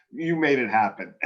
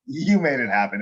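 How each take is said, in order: First: "made" leaned on in "You made it happen"; "made" carries the weight; stress on made. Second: "you" hit first and hardest in "you made it happen"; "you" lifted above the rest; stress on you. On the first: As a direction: push the word "made". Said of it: "No, you made it happen". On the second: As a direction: point the credit at "you". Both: Shown as a demonstration.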